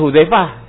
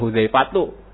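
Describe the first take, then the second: First: The name ends in a silent h, no vowel. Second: The name ends with a t and u vowel. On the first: It is the everyday way of calling the name. "disukunkan untuk manggil biasa" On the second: It is the fully vowelled form for reading. "kalau mau dia kasih harokat"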